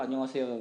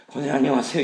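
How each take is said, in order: First: Respectful, controlled hello; polite greeting. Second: Loud, cross hello; scowling greeting. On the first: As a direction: greet an elder courteously. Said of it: "눈 마주치면서 권사님한테 구십 도로". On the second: Teacher greeting deaconess while still cross, loud scowling hello. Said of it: "인상 쓰면서". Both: Acted.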